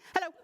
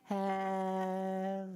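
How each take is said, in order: First: It is said fast. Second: It is said slowly.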